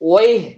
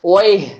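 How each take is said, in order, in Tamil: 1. இது 'wayh' என்று சொல்லப்படுகிறது, குவைத்தி பாணியில். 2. இது 'wayh' என்று சொல்லப்படுகிறது, குவைத்தி பாணியில்.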